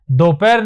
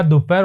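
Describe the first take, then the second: First: दोपहर said with a clear "do"; wrong "do" sound. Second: दोपहर said as "dupahar" with a "du"; correct "du" sound. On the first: Teacher shows the wrong way to say it, then the clear "do" in दोपहर. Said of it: "दोपहर नहीं होता". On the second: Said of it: "दोपहर होता है". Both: Shown as a demonstration.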